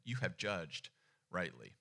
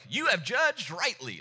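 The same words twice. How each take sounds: First: It is said in a plain, neutral reading tone. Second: It is said in a mocking, sarcastic tone. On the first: The answer is simply confirmed as correct. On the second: The answer was so obvious it needed no asking.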